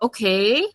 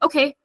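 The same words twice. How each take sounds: First: It sounds doubtful and suspicious. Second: It sounds plain and neutral. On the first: The speaker distrusts the other person. "I'm a bit suspicious of you" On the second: The speaker simply acknowledges something. "no neutral"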